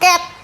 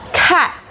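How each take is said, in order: First: The word starts with an s sound. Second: The word starts with a k sound. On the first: The speaker calls it wrong. "Bukan cat" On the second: The speaker calls it right. "huruf C-nya bunyinya K"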